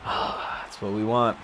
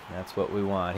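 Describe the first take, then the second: First: Slow, whispered on a sigh; a slow wistful whisper. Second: Said in the usual way. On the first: Real, not acted. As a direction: breathe it out slowly, almost no voice. Sighing to himself over the game.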